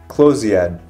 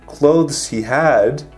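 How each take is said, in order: First: The words blend into one reduced word. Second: Each word is said separately and fully.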